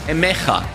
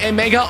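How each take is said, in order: First: The middle consonant is a throaty CH sound. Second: The middle consonant is a hard G sound.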